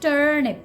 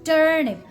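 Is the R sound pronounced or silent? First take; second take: pronounced; pronounced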